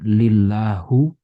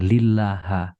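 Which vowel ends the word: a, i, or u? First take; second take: u; a. First: The word ends with a u vowel. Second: The word ends with an a vowel.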